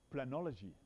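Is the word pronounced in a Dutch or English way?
English. The word is pronounced the English way. "I will uh, say it in an English way"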